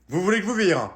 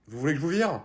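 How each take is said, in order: First: Louder and higher, a sharper repeat of the threat. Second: Said in the usual way. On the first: Acted. Librarian repeating her threat to kick the kids out, louder. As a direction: raise the voice on the repeat.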